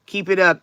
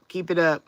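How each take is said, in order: First: "Keep it up" again, pushed louder, landing hard on "up"; louder repeat. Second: Said in the usual way. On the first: Real, not acted. Cheering on a prayer warrior in the chat, a louder encouraging "Keep it up". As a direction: repeat "Keep it up" with more push on "up". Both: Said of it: "Good job".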